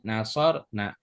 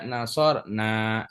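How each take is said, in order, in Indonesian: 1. Vokal akhirnya pendek. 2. Vokal akhirnya panjang. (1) "Perhatikan pendek" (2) "Jangan dibaca ... Kalau dibaca panjang"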